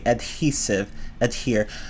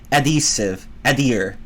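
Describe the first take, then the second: First: The H sound is pronounced. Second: The H sound is dropped. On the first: The speaker calls it right. "I would say the H" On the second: The speaker calls it wrong. "it just doesn't sound right to me to take the H out"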